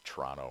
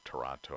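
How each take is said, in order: First: It is pronounced the way Canadians say it. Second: It is pronounced in a non-Canadian way. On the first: The speaker sounds like someone from Canada. "I say Toronto instead of" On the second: The speaker sounds like someone not from Canada. "instead of Toronto"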